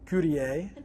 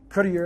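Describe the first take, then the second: First: The name is said with a French-style pronunciation. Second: The name is said with a Spanish-style pronunciation. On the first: "I've been French" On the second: "Spanish with uh"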